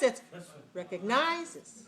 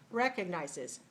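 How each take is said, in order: First: The stress is on the third syllable. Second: The stress is on the first syllable. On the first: The speaker calls it wrong. "If it's like this" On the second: The speaker calls it right. "If I do this way, it's like this"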